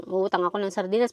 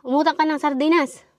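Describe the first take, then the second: First: Quick, mumbled sulky repeat; sulky mimicking. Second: Higher, louder bossy mother voice; mock the mother's order, pitched up. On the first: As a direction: grumble it back like a reluctant kid. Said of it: "Mukha kami na". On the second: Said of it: "Sabi niya".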